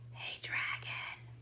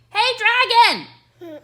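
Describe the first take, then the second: First: It is whispered very softly. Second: It is shouted very loudly.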